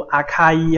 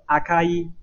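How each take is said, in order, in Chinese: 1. 中间的 k 很用力，是送气的。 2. 中间的 k 很轻，是不送气的。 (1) "不要读阿卡伊哈" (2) "这个卡稍微轻一点"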